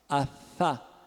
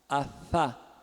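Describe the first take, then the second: Both takes have the same delivery.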